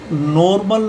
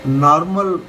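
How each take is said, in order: First: नॉर्मल with a long rounded O in the first syllable, "nor-mal"; नॉर्मल, first vowel drawn out as O. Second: नॉर्मल with an open AA in the first syllable, "naa-rmal"; नॉर्मल, first vowel opened to a long AA. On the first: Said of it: "नहीं पढ़ेंगे, इस ओ को". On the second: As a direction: say नॉर्मल as "NAAR-mal", not "nor". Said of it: "ये वाला आ वाला sound लेंगे". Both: Shown as a demonstration.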